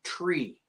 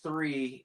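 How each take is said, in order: First: The word begins with a hard t sound. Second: The word begins with a soft th sound. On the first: "is pronounced tree, T R E E" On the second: "that T H sound can confuse people over the radio"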